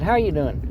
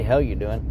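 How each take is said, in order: First: "How you doing?" with "How" said as a clear how, pitched higher; proper greeting. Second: "Hell you doing?" with "Hell" said as the word hell, short e; misheard greeting. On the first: Correcting what he actually greets people with, clear "How". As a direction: open up "How" so it can't sound like hell. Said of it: "I said". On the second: Explaining how his greeting might be misheard, "Hell" said as hell. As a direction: say "Hell" clearly in place of "How". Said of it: "'Cause I didn't say". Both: Shown as a demonstration.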